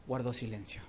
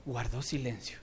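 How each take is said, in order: Both takes have the same delivery.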